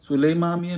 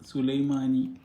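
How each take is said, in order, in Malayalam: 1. അവസാന അക്ഷരം m ശബ്ദത്തിലാണ് തുടങ്ങുന്നത്. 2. അവസാന അക്ഷരം n ശബ്ദത്തിലാണ് തുടങ്ങുന്നത്.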